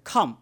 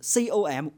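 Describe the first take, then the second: First: It is pronounced as one whole word. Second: Each letter is named separately, one by one. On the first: The letters are treated as a word. "按照单词读法就是com" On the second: The letters are treated as separate characters. "按照字母读法就是c o m"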